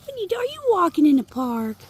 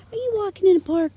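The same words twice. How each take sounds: First: Talking to a dog. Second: Quick high coo at the pup; talking to a dog. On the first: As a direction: coo up high at the pup. Cooing to the dog. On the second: Repeats faster to the dog. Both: Real, not acted.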